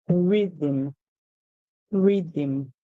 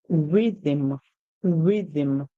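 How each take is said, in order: No difference in how they are said.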